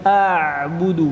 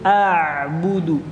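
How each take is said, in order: The two takes are said the same way.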